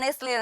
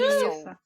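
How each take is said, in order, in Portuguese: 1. O nome é pronunciado como a marca, Nestlé. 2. O nome é pronunciado como Nissou. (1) "a gente falava Nestlé" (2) "mas fala Nissou"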